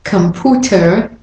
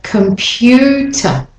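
First: Computer said as com-POO-ter; no y glide. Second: Computer slowly as com-PYOO-tuh; intrusive y. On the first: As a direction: drop the y from computer. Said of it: "It's not". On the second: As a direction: draw out the y in computer. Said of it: "the y in there". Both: Shown as a demonstration.

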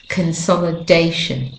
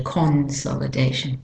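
First: Consolidation opening with a weak "kuhn"; schwa first syllable. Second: Consolidation with a full "con" in the first syllable; South African pronunciation. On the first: Teacher giving the practiced accents' version, "kuhn" in consolidation. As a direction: say consolidation with reduced first O, stress on DAY. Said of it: "with the accents we're practicing". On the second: Teacher citing South Africans, full-vowel "con" in consolidation. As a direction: say consolidation quietly, opening with "kon" rather than a schwa. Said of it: "Unless you're a South African".

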